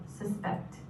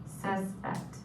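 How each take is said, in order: First: "suspect" as a verb, stress on the second syllable, suh-SPECT. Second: "suspect" as a noun, stress on the first syllable, SUS-pect. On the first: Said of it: "you can say this two different ways". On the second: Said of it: "We also have the noun". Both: Shown as a demonstration.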